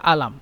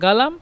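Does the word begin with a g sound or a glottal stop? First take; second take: glottal stop; g sound. First: The word begins with a glottal stop. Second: The word begins with a hard g sound. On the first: This is the Egyptian dialect form. "মিশরেরা আলাম" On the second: This is the Saudi dialect form. "Saudi আরবরা গালাম"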